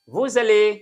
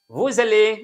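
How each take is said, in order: The two takes are said the same way.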